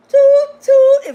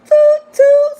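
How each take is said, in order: First: Horn imitation. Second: Loud high "toot, toot" like a horn; horn imitation. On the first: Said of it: "Toot your own horn". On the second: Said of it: "let me toot my own horn". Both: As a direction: honk it out like a horn.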